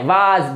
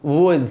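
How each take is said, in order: First: Was said as spelt, long waas; the mistaken spelling-style was; wrong pronunciation. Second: Was said short as woz; the right way to say was, woz; correct pronunciation. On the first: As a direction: was read letter by letter as waas. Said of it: "इसको was नहीं बोलना है". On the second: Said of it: "not was, it's was". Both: Shown as a demonstration.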